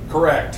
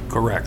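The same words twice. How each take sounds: First: It is yelled loudly. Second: It is said at a normal volume. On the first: The speaker calls it right. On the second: The speaker calls it wrong.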